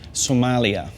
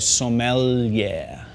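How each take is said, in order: First: It sounds like the country Somalia. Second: It is said as sommelier, holding the L. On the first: The speaker calls it wrong. "what not to say" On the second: The speaker calls it right. "you hold the L, so you go sommelier"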